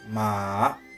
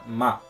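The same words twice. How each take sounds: First: Its pitch changes within the syllable. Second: It is said with no particular tone. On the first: "um ma que varia o tom" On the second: "Ma não tem tom nenhum"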